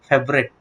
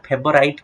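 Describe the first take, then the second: First: The last syllable sounds like 'ret' or 'rate'. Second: The last syllable rhymes with 'bite'. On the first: The speaker calls it right. "କ'ଣ ପଢିବ ଫେଭରେଟ୍ ବୋଲି ପଢିବ" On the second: The speaker calls it wrong. "ଫେଭରାଇଟ୍ କେହି ପଢିବନି"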